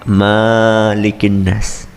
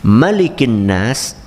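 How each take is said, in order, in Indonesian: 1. Vokal pertama pada Malik panjang. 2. Vokal pertama pada Malik pendek. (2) "Maliki, pendek"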